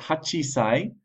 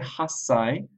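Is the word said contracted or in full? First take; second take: full; contracted. First: It is said in full with a chi sound. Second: It is contracted with a doubled s sound. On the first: The speaker calls it wrong. "than hachisai" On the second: The speaker calls it right. "it's easier to say hassai"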